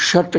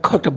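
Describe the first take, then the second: First: The word begins with a 'sh' sound. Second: The word begins with a 'kh' sound. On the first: "शट जो आप कहते हैं" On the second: "तो वो खट बोलते हैं"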